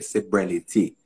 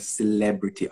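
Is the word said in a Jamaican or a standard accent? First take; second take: Jamaican; standard. First: It is said in a Jamaican accent. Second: It is said in a standard accent.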